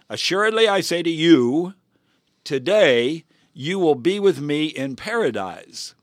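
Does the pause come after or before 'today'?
before. The pause comes right before 'today'.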